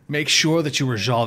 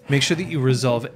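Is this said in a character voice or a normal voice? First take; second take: character voice; normal voice. First: It is said in a put-on character voice. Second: It is said in the speaker's ordinary voice. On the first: The speaker calls it right. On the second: The speaker calls it wrong.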